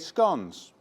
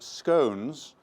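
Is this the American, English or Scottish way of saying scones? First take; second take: English; American. First: It is said the English way. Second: It is said the American way.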